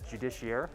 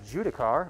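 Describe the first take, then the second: First: The word ends with an 'air' sound. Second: The word ends with a 'car' sound. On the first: "however you want to pronounce that" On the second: "We say Judicar"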